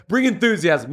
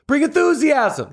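First: Said in the usual way. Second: High-pitched burst of enthusiasm; peppy, energetic exhortation; enthusiastic. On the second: Shown as a demonstration. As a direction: pitch it way up and rally them. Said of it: "That was pretty good".

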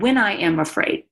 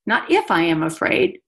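First: "When" stressed, leading the phrase. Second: "if" lifted with a rise as the wrong word; stress on if. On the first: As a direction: punch "When" as a certainty, not "if". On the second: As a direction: lean on "if" to show it is not meant. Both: Shown as a demonstration.

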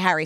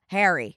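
First: "Harry" with the A of "hat"; old Philly A. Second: "Harry" rhyming with "hairy"; newer A. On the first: Recalling the old Philly way, short flat-cat A in "Harry". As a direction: say "Harry" as HAT-ree without the T. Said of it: "I would say, like". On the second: Showing friends the changed accent, "Harry" said as "hairy". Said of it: "Now I would say Harry". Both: Shown as a demonstration.

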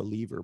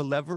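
First: "lever" as LEE-ver, with the vowel of "leave"; long-e pronunciation. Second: "lever" as LEV-er, with the e of "never"; short-e pronunciation. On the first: Host asks Bob which he prefers, "lever" as LEE-ver. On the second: Host asks Bob which he prefers, "lever" as LEV-er. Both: Shown as a demonstration. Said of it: "lever or lever".

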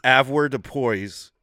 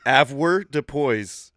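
First: Slow careful pronunciation. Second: Drawn-out syllables, very slow; slow careful pronunciation. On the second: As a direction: say "Avoirdupois" slowly, syllable by syllable. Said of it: "at, a what?". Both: Shown as a demonstration.

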